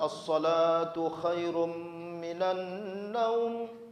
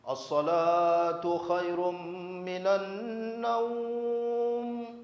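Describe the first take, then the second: First: The vowel in the last word is held briefly. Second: The vowel in the last word is drawn out. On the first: "boleh dibaca" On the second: "Boleh dibaca juga sampai enam"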